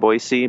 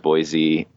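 First: The middle consonant is an s sound. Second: The middle consonant is a z sound. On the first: It is how locals say the name. The speaker calls it right. "that's the way we say it ... B-O-Y-S-E-E" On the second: It is how outsiders say the name. The speaker calls it wrong. "I too thought it was Boise"

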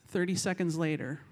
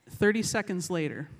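The two takes are said the same way.

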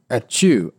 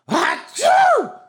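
First: The fake sneeze is small and timid. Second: The fake sneeze is big and exaggerated.

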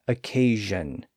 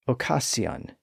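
First: The middle consonant is a buzzing zh sound. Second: The middle consonant is a hissing s sound. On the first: This is the later modern pronunciation. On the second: This is the original older pronunciation.

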